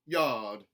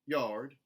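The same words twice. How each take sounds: First: The R sound is dropped. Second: The R sound is lightly pronounced. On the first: "a general Southern dropped R" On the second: "a contemporary Southern, where those R colorations are put back in"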